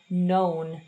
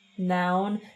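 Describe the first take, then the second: First: The vowel sounds like 'oh'. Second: The vowel sounds like 'ow'. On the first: The speaker calls it right. "oh, oh, known" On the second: The speaker calls it wrong. "ho scelto una vocale un po' sbagliata"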